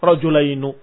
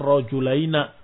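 First: The final word ends with a u vowel. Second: The final word ends with an a vowel. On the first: This form is used only sometimes. "Dan kadang-kadang didomahkan malah" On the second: This is a dialect form. "Walaupun ada dialek"

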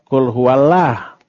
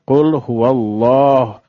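First: The L sound is thin and light. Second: The L sound is thick and heavy. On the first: The speaker calls it wrong. "bukan qul huwallah" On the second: The speaker calls it right. "maka wajib tafhim"

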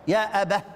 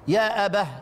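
Both takes have the same delivery.

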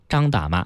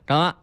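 First: Every syllable is pronounced fully and clearly. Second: The syllables are swallowed into a mumbled blur. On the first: "应该叫得非常清楚" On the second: "三个字能吞成就剩一个字了"

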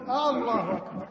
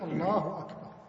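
First: The opening a of the first word is stretched. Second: No vowel is stretched beyond normal length. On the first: Is God the greatest? The speaker calls it wrong. "مد همزة الله" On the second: God is the greatest. The speaker calls it right. "إنما يقول الله أكبر"

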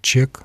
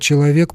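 First: The word is shortened to one clipped syllable. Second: The word is pronounced in full, all three syllables. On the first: "произносим как «чек», просто «чек»" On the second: "мы слово «человек» произносим как"

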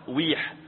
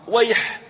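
First: The first vowel is not an 'a' sound. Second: The first vowel is an 'a' sound. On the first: The speaker calls it wrong. "ما يصلح تقول ويح أو ويح" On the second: The speaker calls it right. "هي كلمة مفتوحة يعني مبنية على الفتح في أوله"

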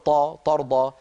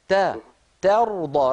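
First: The first consonant is heavy and emphatic. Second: The first consonant is light and thin. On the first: The speaker calls it wrong. "لا تقول طا ترضى" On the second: The speaker calls it right. "رقق التاء وفخم الراء"

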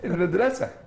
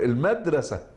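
First: The stress falls at the end of the word. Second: The stress falls at the start of the word. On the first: It sounds like a Cairo native. "أنت عليك أن تقول المدرسة" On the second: It marks the speaker as a rural villager. "ففي لهجة الريف ستقول المدرسة"

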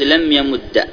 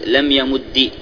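First: The doubled d ends with an a vowel. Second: The doubled d ends with an i vowel.

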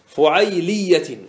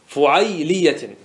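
Both takes have the same delivery.

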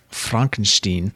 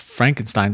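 First: The name has a deliberately altered pronunciation. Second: The name has its usual, familiar pronunciation. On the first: The speaker calls it right. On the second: The speaker calls it wrong.

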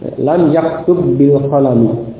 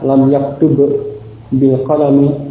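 First: The two b sounds merge into one doubled sound. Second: The two b sounds are pronounced separately. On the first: The speaker calls it right. "Ba'nya diidghamkan" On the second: The speaker calls it wrong. "tidak dibaca terpisah. ... tidak seperti itu"

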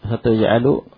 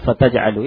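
First: The verb begins with a 'tu' sound. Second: The verb begins with a 'ta' sound. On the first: The speaker calls it wrong. "Tadi kan dibaca tuj'alu" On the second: The speaker calls it right. "mungkin tepatnya fataj'alu"

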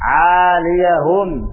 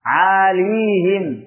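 First: The ya carries an a vowel, giving four syllables. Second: The ya has no vowel, giving three syllables. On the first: "dan itu bacaan kita dengan di fathah" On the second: "Jadi ya-nya itu disukun, tidak di fathah"

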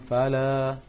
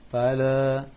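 Both takes have the same delivery.

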